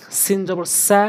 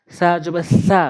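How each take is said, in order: First: সা from সিন said softly, tongue tip between the teeth; soft sin. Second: সা from the sad letter said hard and pressed. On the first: Teacher shows students the soft sin sound. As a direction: say সা gently, soft sin letter. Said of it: "normally, একদম নরম করে". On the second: Teacher shows students the hard sad sound. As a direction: press সা firmly from the tongue tip. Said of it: "সা, এটি হচ্ছে শক্ত করে". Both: Shown as a demonstration.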